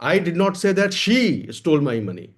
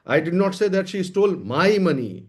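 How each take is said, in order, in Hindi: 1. ज़ोर 'she' शब्द पर है। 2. ज़ोर 'my' शब्द पर है। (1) "पैसा चोरी हुआ है लेकिन मैंने ये नहीं कहा कि उसने चुराया है।" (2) "लेकिन मेरा पैसा नहीं चुराया है।"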